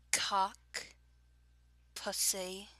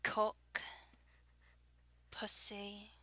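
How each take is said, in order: First: Drawn-out words in a Southern accent. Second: Put-on English accent; rounded vowels in a fake British accent. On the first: Reading a word list for an accent challenge, Southern accent. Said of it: "starting with my usual southern accent". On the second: Reading a word list for an accent challenge, fake British accent. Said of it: "fake British accent, fake English accent". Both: Shown as a demonstration.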